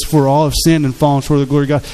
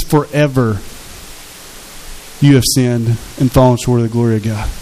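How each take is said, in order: First: Said in the usual way. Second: Preacher reshaping the verse, weighting Forever; stress on Forever. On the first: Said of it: "what Romans three twenty-three says". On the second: Shown as a demonstration. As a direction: lean hard on Forever, then let the verse fall. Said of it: "It says".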